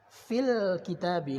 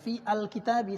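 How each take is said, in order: First: The a of al is dropped, linked. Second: The a of al is pronounced separately. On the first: The speaker calls it right. "langsung tidak dibaca" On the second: The speaker calls it wrong. "bukan fi al kitabi salah"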